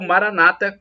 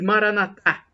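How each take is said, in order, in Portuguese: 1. A tônica está na penúltima sílaba. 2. A tônica está na última sílaba. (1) "como dizem os protestantes, os evangélicos, com a tônica na penúltima sílaba" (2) "como dizemos nós católicos com a tônica na última sílaba"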